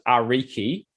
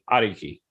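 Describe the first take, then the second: First: The R is a plain English R. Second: The R is tapped, between D, R and L. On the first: The speaker calls it wrong. "most people that weren't Maori would pronounce it" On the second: The speaker calls it right. "I pronounced it"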